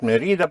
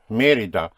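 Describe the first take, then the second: First: Mérida as me-REE-da, stress on RI; the rejected Mérida, said me-RI-da; wrong middle stress. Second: Mérida as MÉ-ri-da, first syllable punched; corrected Mérida, stressed on the accented E. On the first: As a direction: push the second syllable of Mérida. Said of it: "But it is not Mérida". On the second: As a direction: hit the Mé of Mérida, let the rest fall. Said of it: "it is not Mérida, but". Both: Shown as a demonstration.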